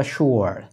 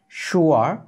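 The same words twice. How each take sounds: First: "sure" as shoo-er, falling, R sounded; alternative pronunciation. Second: "sure" as shoo-uh, rising tune; alternative pronunciation. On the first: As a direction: end "sure" on an English R. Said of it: "অথবা". ("sure" শুয়ার, নামা সুরে) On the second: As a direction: lift the end of shoo-uh for "sure". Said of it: "আরেকটা উচ্চারণ আছে". ("sure" শুয়া, ওঠা সুরে) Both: Shown as a demonstration.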